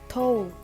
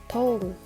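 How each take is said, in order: First: The final d sound is dropped. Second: The same.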